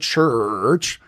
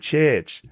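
First: The R in the vowel is sounded. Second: The R in the vowel is dropped. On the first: "it's not the church" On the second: "it's the church"

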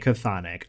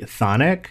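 First: An extra consonant comes before the th sound. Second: The word starts directly with the th sound. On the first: This is how the game says it. "In Hades the game, they say Chthonic" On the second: This is how the speaker has always said it. "I have always pronounced it solely Thonic"

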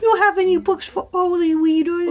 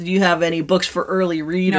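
First: It is said in a put-on character voice. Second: It is said in a plain, natural voice. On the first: The speaker calls it right. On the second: The speaker calls it wrong.

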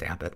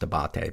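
First: The name ends in 'butt', stressed on the first syllable. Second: The name ends in 'bate', stressed on the second syllable. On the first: This is how the name is actually said. The speaker calls it right. "but it's pronounced Abbott" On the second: This is how the spelling suggests it is said. The speaker calls it wrong. "which you would think is pronounced Abate"

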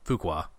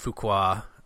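First: The name is said loosely, less fully enunciated. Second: The name is said with crisp, full enunciation. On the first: The speaker calls it right. "I think it's Fuqua. Probably less enunciated" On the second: The speaker calls it wrong. "I know I'm saying it wrong and I'm doing it on purpose"

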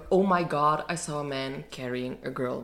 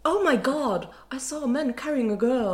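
First: It is said in the speaker's ordinary accent. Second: It is said in a posh British accent.

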